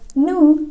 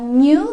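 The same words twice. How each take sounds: First: No y glide follows the n. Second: A y glide follows the n. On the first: "bisa nggak pakai" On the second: "bisa pakai Y"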